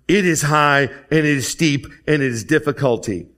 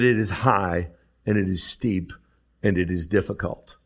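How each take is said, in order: First: It is said with more energy and emphasis. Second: It is said in a calm, plain way. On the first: Someone is speaking from experience of failing. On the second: Someone is agreeing from a distance.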